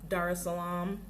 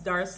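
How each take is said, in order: First: Each syllable is said clearly and separately. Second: The syllables run together without the s sound. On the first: This is how visitors say it. "we enunciate each syllable" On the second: This is how locals say it. "they don't say S"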